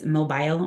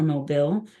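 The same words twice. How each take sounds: First: "mobile" rhyming its end with "mile"; long-i mobile. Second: "mobile" with a short "bill" ending. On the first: Trainer recounting a debate with a friend, "mobile" said MOH-byle. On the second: Trainer giving the other side of the debate, "mobile" said MOH-bill. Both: Shown as a demonstration. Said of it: "if it's mobile or mobile".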